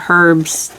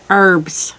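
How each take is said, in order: First: It is said with a pronounced h. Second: It is said with a silent h.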